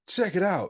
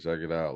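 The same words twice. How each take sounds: First: It is said with lively, hyped-up energy. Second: It is said flatly, with little energy. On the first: The speaker is selling the show hard. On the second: The speaker is not hyping the show.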